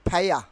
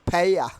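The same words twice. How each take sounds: The two takes are said the same way.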